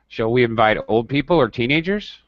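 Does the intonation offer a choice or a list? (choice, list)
list. The intonation lists both options as a group. Both groups together may be meant. "Now it could mean either. There's a difference in intonation"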